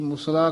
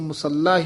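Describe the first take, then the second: First: The middle consonant is short, single. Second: The middle consonant is held, doubled. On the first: The speaker calls it wrong. "ਕਈ ਮੁਸਲਾ ਕਹਿ ਜਾਂਦੇ ਨੇ" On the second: The speaker calls it right. "ਇਸ ਨੂੰ ਮੁਸੱਲਾ ਹੀ ਉਚਾਰਨ ਕਰਨਾ ਹੈ"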